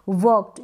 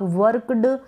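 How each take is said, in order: First: The word ends with a t sound. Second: The word ends with a d sound. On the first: The speaker calls it right. "यहाँ पर ट का sound आना चाहिए" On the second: The speaker calls it wrong. "आप वर्कड ऐसे नहीं पढ़ सकते"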